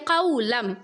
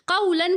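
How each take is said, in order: First: The word ends with an m sound. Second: The word ends with an n sound. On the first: The speaker calls it right. "पढ़ेंगे क़ौलम" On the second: The speaker calls it wrong. "क़ौलन की जगह"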